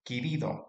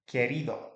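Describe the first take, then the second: First: The first vowel sounds like 'ee'. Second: The first vowel sounds like 'eh'. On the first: The speaker calls it wrong. "pronounce the E there like an I" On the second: The speaker calls it right. "That's the E sound"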